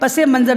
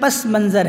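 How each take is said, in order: First: A linking -e- vowel joins the two words. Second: No linking vowel comes between the two words. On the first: The speaker calls it wrong. "इसको इजाफ़त के साथ नहीं पढ़ना चाहिए" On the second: The speaker calls it right. "बल्कि पस मंज़र है"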